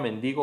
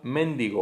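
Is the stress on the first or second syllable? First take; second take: second; first. First: The stress is on the second syllable. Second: The stress is on the first syllable. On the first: The speaker calls it right. "en vez de" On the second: The speaker calls it wrong. "la tendencia esdrújula"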